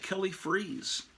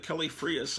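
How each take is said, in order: First: The surname is said in a plain English style. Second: The surname is said in a Spanish style. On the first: The speaker calls it right. "I always pronounced it Kelly Freas" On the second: The speaker calls it wrong. "That must be a Spanish kind of name. I bet it's pronounced Frias"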